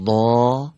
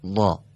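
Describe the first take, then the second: First: ضا with a drawn-out heavy aa; long fatha. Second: ضا with a short, clipped heavy a; short fatha. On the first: Teacher showing the long vowel before the short one. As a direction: stretch the aa on ضا. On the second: Teacher showing the short vowel after the long one. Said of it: "بعد حرکت کوتاه رو". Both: Shown as a demonstration.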